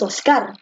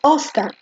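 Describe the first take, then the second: First: The stress is on the second syllable. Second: The stress is on the first syllable. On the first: The speaker calls it wrong. "tú no dices Oscar" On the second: The speaker calls it right. "tú dices Oscar"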